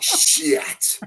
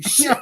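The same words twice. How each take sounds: First: The word is stretched out and drawn long. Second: The word is said short and clipped. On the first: The speaker calls it wrong. "It's like" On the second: The speaker calls it right. "the word should be shorter. It should be shit"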